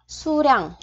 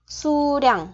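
No difference in how they are said.

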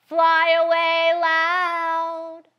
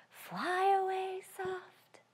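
First: Slow, louder singing; slow loud sung line. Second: Slow whispered; hushed slow sung whisper; soft. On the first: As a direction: sing it out loud. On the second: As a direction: whisper it softly. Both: Shown as a demonstration.

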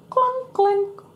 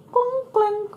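First: High, mechanical clunk clink; clunking ski lift. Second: High clanking sounds; clunk clink again. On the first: Narrator mimics the ski lift clanking. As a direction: sound out the lift machinery. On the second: Narrator repeats the ski lift clanking. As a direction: echo the lift noise. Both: A narrator's reading.

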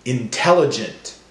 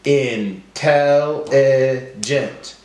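First: Said in the usual way. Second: In... tel... li... gent, very slow; broken into syllables. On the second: Shown as a demonstration. Teacher helping class count syllables, slowly one by one. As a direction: stretch out every syllable separately. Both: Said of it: "break up our words into syllables".

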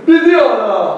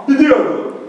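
First: Full crooner impression. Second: A light take on the singer's voice; mild crooner impression. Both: Shown as a demonstration. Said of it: "tem que trocar M pelo B".

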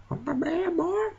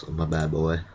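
First: On my bad boy in a very high squeak; squeaky repeat. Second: Said in the usual way. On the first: Shown as a demonstration. Gamer repeating a phrase about his tank in a high squeak. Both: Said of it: "speaking in this accent".

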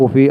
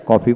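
First: কফি with closed "o", "ko-fi"; American pronunciation. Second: কফি with open "o", "kaw-fi"; British pronunciation. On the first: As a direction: say American কফি starting "koh". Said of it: "কফি আমেরিকানরা". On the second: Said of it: "ব্রিটিশরা কফি বলে". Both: Shown as a demonstration.

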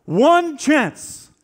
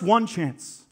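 First: One chance thrown out much higher and louder; rising rallying cry. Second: Said in the usual way. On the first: Retold or imitated. Wallace peaking his speech to the troops, loud and high. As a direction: hit one chance hard as the peak of the speech. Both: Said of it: "And he says".

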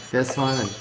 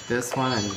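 Both takes have the same delivery.

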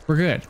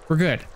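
The two takes are said the same way.

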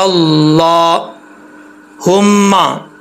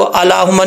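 First: अल्लाहुम्मा very slow, "laa" sustained; drawn-out, measured अल्लाहुम्मा with heavy L; correct long vowel. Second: अल्लाहुम्मा said quickly, "la" cut short; quick, unstretched अल्लाहुम्मा; wrong short vowel. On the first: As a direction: hold the "laa" in अल्लाहुम्मा, then a doubled M. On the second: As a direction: rush अल्लाहुम्मा without stretching the L syllable. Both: Shown as a demonstration. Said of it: "इसको अल्लाहुम्मा नहीं पढ़ेंगे".

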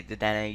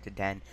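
First: Dedenne with a final "ay" sound; own pronunciation. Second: Deden ending on the "n"; alternative pronunciation. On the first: Player giving their own way, Dedenne ending in "ay". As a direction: say Dedenne as deh-den-AY. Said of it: "I say Dedenne". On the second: Player allowing the viewer's way, Deden with silent ending. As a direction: say Deden as deh-DEN, no final vowel. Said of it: "you may say it Deden". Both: Shown as a demonstration.

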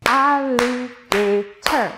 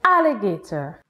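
First: "Alligator" slowly split into four beats, al-li-ga-tor; clapped syllables. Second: Said in the usual way. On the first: Shown as a demonstration. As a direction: sound out "Alligator" slowly, one syllable per clap. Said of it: "let's clap one more word". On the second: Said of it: "The word is".

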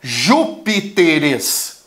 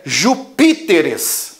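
First: Júpiteres slow, stressed on JÚ; wrong stress. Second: Jupíteres slow, stressed on PÍ; shifted stress. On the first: Teacher showing forbidden stress, Júpiteres slowly with JÚ stressed. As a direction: stretch JÚ-pi-te-res with stress on the first syllable. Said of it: "eu não posso falar". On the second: Teacher giving the right plural, Jupíteres with stress moved to PÍ. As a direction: punch PÍ in ju-PÍ-te-res. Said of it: "tenho que deslocar a sílaba tônica". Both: Shown as a demonstration.

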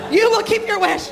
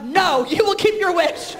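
First: High and louder, laughing through it; giggling fake-stern mom; laughing mock order. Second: Slow, high, insistent mock command; hammed-up bossy mom insisting; mock psycho mother. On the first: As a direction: insist while cracking up. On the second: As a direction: lay down the law, half joking. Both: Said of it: "psycho mother".

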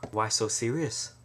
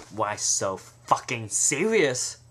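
First: Said in the usual way. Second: Why so fucking serious, slow, fucking hit hard; slow menacing Joker line; stress on fucking. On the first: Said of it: "sounds so much more serious". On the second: Shown as a demonstration. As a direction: drag it out with menace. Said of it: "more serious if you say".

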